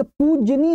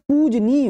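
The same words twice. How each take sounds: First: पूजनीय pitched high as the mistaken form, "poojy-nee"; teacher's wrong example of पूजनीय. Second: पूजनीय drawn out slowly, "pooj-neey"; slow down and stretch पूजनीय; teacher's careful model of पूजनीय; correct form. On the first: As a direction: say पूजनीय high, as a word to reject. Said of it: "नहीं होता". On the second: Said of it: "होता है". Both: Shown as a demonstration.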